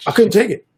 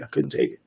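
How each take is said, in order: First: Louder, higher emotional repeat; emotional outburst. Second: Said in the usual way. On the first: Real, not acted. Narrator reliving breaking down, louder emotional repeat. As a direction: push it out as the memory overwhelms. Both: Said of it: "broke down".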